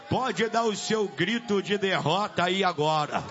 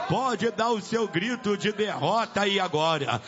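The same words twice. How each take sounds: The two takes are said the same way.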